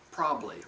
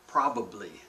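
First: The syllables are slurred into a shorter form. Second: All three syllables are pronounced fully. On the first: The speaker calls it wrong. "often comes out" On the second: The speaker calls it right. "First one"

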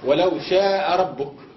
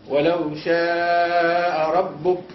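First: The vowel before the hamza is held short. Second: The vowel before the hamza is held long. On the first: The speaker calls it wrong. "ما قلوش" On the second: The speaker calls it right. "لابد من هذه الزيادة التي سببها الهمز، فنقول"

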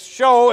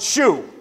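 First: The vowel sounds like the one in 'go'. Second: The vowel sounds like the one in 'blue'. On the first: The speaker calls it right. "I think it's show" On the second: The speaker calls it wrong. "they'll pronounce it shoe. I don't do that"

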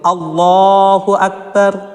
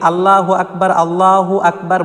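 First: The L in Allah is heavy and full. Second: The L in Allah is light and thin. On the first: The speaker calls it right. "আল্লাহর লামকে পুর অর্থাৎ ল পড়তে হয়" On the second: The speaker calls it wrong. "অনেকে ভুল করে আল্লাহু আকবার বলে"

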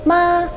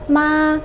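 Both takes have the same delivery.

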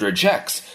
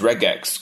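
First: The G is said soft, as in 'gem'. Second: The G is said hard, as in 'go'. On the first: The word is thought of as one ordinary word. "capture it as one single entity and read it as if it was a regular English word" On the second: The word is thought of as two separate words. "capture this word as two separate entities"

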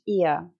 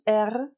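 First: Only the e vowel is heard, no r. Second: The final r sound is pronounced. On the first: "Просто звук «е», це нормально" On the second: "Інколи вони кажуть er"

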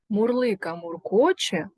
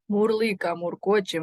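First: The phrase is said at a slow pace. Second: The phrase is said at the fastest pace. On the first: "Повторюйте за мною скоромовку" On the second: "І ще швидше"

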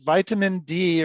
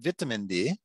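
First: It is said in an American accent. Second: It is said in a British London accent.

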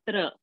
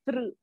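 First: The syllable ends with an open 'a' vowel. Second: The syllable ends with a slight 'u' vowel. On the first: The speaker calls it wrong. "So you cannot say tra" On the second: The speaker calls it right. "You'll have to say tru. There is a slight ukara and rakara"

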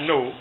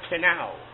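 First: The K at the start is silent. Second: The K at the start is sounded. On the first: The speaker calls it wrong. "Not no" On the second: The speaker calls it right. "I like to pronounce that word, canal"

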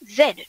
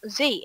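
First: The letter is said the Australian way. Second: The letter is said the American way.

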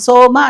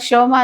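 First: The word begins with a plain 's' sound. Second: The word begins with a 'sh' sound. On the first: The speaker calls it right. "సోమ అంటున్నాం" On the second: The speaker calls it wrong. "శనివారం లాగా శోమ అంటున్నామా? లేదు"

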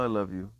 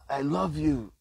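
First: It is said flatly, with little energy. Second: It is said with more energy and life. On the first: The love behind the words seems weak. "Doesn't sound like it has much life force behind that love" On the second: The love behind the words seems stronger. "Sounds like they have a little more life force"

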